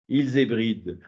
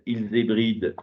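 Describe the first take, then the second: First: It sounds pleased, like a discovery. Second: It is read in a flat, neutral way. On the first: He has found what he was looking for. "là, il a trouvé" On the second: Someone is simply reading the text aloud. "je le lis de manière très neutre"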